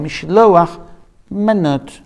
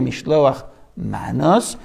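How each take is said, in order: First: The last word ends with a t sound. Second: The last word ends with an s sound.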